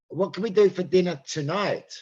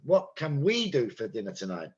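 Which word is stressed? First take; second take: tonight; we. First: The stress falls on the word tonight. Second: The stress falls on the word we. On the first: It is about tonight, not tomorrow. "Not tomorrow, tonight" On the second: It is us, not others, who will decide. "Meaning we"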